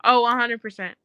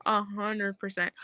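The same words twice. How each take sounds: First: Firm, full-voiced OH, A HUNDRED PERCENT; emphatic agreement. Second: Slow, softer A HUNDRED PERCENT; hushed agreement. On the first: Emphatic agreement, first take. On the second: Repeats agreement, slower and softer. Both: Real, not acted.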